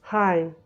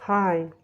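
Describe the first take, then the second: The two takes are said the same way.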